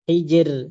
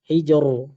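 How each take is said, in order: First: The r is pronounced thin and light. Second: The r is pronounced thick and heavy. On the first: The speaker calls it right. "ini juga tipis" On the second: The speaker calls it wrong. "ada yang baca tebal"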